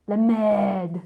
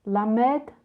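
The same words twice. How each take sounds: First: "Le merde" said louder with a falling end; French try. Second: "La merde" said louder with a rising question; testing "La merde" as a guess; questioning French try. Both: Shown as a demonstration. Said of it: "What comes before merde?".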